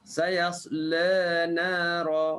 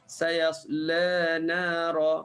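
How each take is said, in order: No difference in how they are said.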